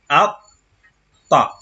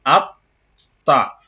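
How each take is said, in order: First: "Atta" with a held doubled t; "Atta" with a strong shadda on the t. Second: "Atta" repeated with the double t held; the shadda in "Atta" stressed once more; doubled t again. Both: Shown as a demonstration. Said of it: "À cause du shadda".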